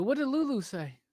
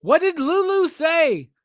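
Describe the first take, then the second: First: Said in the usual way. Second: Higher, louder and slower, pressing the question; louder, slower repeat asking Steph; insistent repeat. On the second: Real, not acted. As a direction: stretch it out and demand an answer.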